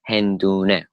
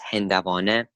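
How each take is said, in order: First: The middle is contracted to 'hendooneh'. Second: The middle is said in full as 'hendevaaneh'. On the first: This is how most speakers say it today. "many of Persian speakers, Farsi speakers say it" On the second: This is the formal, standard pronunciation. "the way that you're meant to pronounce it properly"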